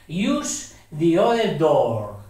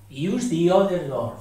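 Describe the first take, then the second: First: "the" said as "di" before "other"; careful slow "Use the other door"; other door read slowly. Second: Said in the usual way. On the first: Shown as a demonstration. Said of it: "aquí no decimos the". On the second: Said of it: "decimos the".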